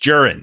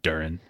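First: The name starts with a J sound. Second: The name does not start with a J sound. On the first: The speaker calls it right. "It's a J. It's Durin" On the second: The speaker calls it wrong. "not Durin"

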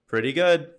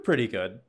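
First: It sounds warm and approving. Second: It sounds lukewarm and unimpressed. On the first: It is genuinely good. "Let me do it the other way" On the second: It is only so-so. "See, that's negative"

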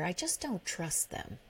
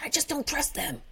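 First: It is said in a calm, mild tone. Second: It is said in a harsh, bitter tone. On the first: It is a plain statement of doubt. "I didn't say it like that" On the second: It carries judgment and contempt for the others. "I said"

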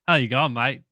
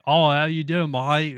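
First: A natural-sounding Australian twang is used. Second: An overdone Australian accent, mouthed heavily, is used.

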